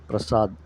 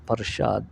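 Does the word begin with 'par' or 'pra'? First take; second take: pra; par. First: The word starts with the cluster 'pra'. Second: The word starts with 'par', the cluster broken up. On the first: This is how it is said in South India. "మన దక్షిణ భారతంలో ప్రసాద్ అని పిలుస్తాం" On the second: This is how it is said in North India. "ఉత్తర భారతంలో పర్షాద్ అని పిలుస్తారు"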